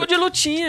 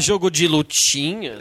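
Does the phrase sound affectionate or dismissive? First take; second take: affectionate; dismissive. First: The phrase is said in a warm, affectionate tone. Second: The phrase is said in a dismissive, belittling tone. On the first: The games are spoken of with fondness. "com todo carinho" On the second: The games are looked down on. "daí é depreciativo"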